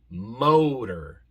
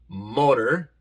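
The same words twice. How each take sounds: First: The o is a long, gliding 'oh' sound. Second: The o is a short, pure Spanish-like vowel. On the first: The speaker calls it right. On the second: The speaker calls it wrong.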